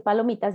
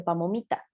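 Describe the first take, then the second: First: Said in the usual way. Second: Put-on "pamomita" with m in place of l, like a small child; child mispronunciation. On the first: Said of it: "en lugar de decir palomitas". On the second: Shown as a demonstration. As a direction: say "pamomita" like a toddler. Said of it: "dice pamomita". ("pamomita" como lo diría una niña pequeña)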